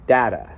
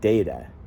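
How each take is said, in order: First: The first vowel sounds like the one in cat. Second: The first vowel sounds like the one in mate. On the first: The speaker calls it right. "So it's data" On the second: The speaker calls it wrong. "not data"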